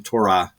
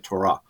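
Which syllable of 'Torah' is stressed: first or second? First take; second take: first; second. First: The stress is on the first syllable. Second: The stress is on the second syllable. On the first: This is the usual English way of saying it. "I think we usually do say Torah" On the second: This is how it is said in Hebrew. "the accent tends to be on the second syllable, so they would say Torah"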